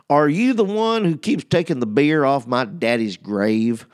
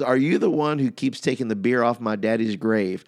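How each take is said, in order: First: It is said in an Alabama accent. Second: It is said in the speaker's plain accent.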